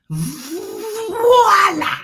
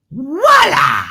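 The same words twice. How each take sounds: First: "Voila!" with a long buzzing V, high; preferred French-sounding way. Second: "Voila!" with a W sound, loud; how people say it. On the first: Host showing how they like "Voila!", long showy V. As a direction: hold the V, then burst into "Voila!". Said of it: "But I like to say". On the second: Host imitating how people say "Voila!", starting on W. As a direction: say "Voila!" as wah-LAH, punched out. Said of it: "sometimes you hear people saying". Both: Shown as a demonstration.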